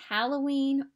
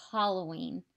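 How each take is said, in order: First: Halloween with a flat "a" as in hat, HAL-oh-ween; first Halloween, HAL like pal; Halloween said two ways. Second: Halloween with an open "ah", HAH-loh-ween; second Halloween, HAH like father; Halloween said two ways. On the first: Asking viewers, she says Halloween with a flat hat vowel. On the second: Asking viewers, she says Halloween with an open ah vowel. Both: Shown as a demonstration. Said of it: "do you say Halloween or Halloween".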